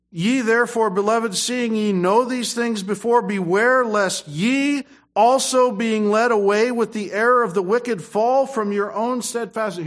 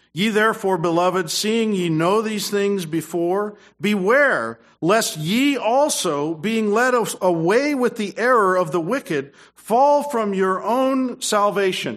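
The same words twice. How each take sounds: First: Scripture reading. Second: Slow, loud, raised preaching read; scripture reading. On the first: Reads scripture in preaching. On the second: Preacher reading verse aloud to church, loud and slow. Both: Acted. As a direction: proclaim the verse to the congregation.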